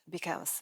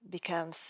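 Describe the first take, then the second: No difference in how they are said.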